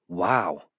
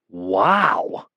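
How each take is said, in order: First: It is said plainly, without extra emphasis. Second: It is said with strong emphasis.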